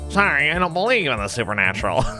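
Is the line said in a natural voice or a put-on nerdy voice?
nerdy. It is said in a nerdy, annoying put-on voice.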